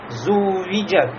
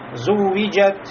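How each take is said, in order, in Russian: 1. Звук w удерживается слишком долго. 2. Звук w удвоен со средней длительностью. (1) "нельзя впасть в чрезмерность, буксовать на этом звуке" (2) "Значит, среднее"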